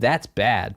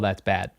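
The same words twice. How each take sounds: First: It sounds impressed and admiring. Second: It sounds disappointed and disapproving. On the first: Something is really good. "bad as in like bad like good" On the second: Something is actually bad. "not bad as in like"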